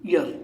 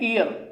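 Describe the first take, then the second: First: The word begins with a 'y' consonant sound. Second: The word begins with a plain 'ee' vowel sound. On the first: The speaker calls it right. "इसको आप बोलते हैं ईयर" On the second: The speaker calls it wrong. "तो sir ई की sound आ रही है"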